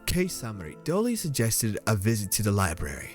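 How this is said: It is read in a put-on detective voice.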